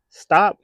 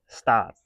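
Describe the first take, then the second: First: Sharp, high, loud command; loud stop. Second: Said in the usual way. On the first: Real, not acted. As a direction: bark it out to cut them off.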